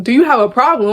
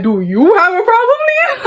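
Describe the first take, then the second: First: Said in the usual way. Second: Too passionate. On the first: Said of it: "and then that was like". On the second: Retold or imitated. Firing the girl's question back at her, high and heated. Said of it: "I was getting a little too passionate".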